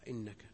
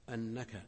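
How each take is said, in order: First: The word begins with an 'i' vowel. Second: The word begins with an 'a' vowel. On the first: The clause is conditional. "وجاء بكسرها" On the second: The clause gives a reason. "جاء مضبوطا بالهمزة المفتوحة"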